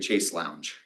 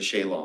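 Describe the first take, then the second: First: The second word rhymes with 'lounge'. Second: The second word sounds like 'long'. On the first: "the American way of pronouncing it" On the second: "The British way"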